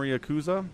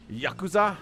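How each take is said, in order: First: Yakuza said "ee-uh-KOO-zuh", starting with an "ee-uh" sound; Yakuza said loosely as ee-uh-KOO-za; mispronounced Yakuza. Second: Yakuza? said "YAH-koo-zah", clear open a sounds, rising; Yakuza? carefully corrected as YAH-koo-zah; corrected pronunciation. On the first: Caster asks a viewer about the game, casual mispronunciation. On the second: Caster corrects himself for the viewer, careful pronunciation. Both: Shown as a demonstration. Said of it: "Sorry, I have to say it right".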